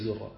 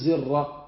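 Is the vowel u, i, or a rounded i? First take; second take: u; i. First: The vowel is a rounded u sound. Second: The vowel is a plain i sound. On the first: "لا تقول فيه زر، لا تحافظ على ضمة الأول" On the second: "بل تحافظ على الكسرة فتقول زر"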